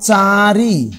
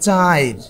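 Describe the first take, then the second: First: The i sound comes after the r. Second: The i sound comes before the r. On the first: "আমি বললাম চারি" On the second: "এ পাশে গেলে কি হবে? চাইর"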